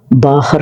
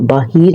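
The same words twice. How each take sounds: First: बाहर said carefully as "ba-har" with a clear h; बाहर, demonstrating the correct form; correct pronunciation. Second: बाहर said the careless everyday way; बाहर, demonstrating the error; wrong pronunciation. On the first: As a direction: pronounce बाहर the proper way, each sound distinct. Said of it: "होता है". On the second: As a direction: give बाहर as the mistaken form. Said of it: "नहीं होता". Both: Shown as a demonstration.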